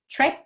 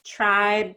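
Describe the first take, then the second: First: TRIPE with a quick, short vowel. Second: TRIBE with a long, stretched vowel; lengthened vowel. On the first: Teacher models minimal pairs, TRIPE said quick and short. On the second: Teacher models minimal pairs, TRIBE drawn out. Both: Shown as a demonstration. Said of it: "these vowels have a change in size".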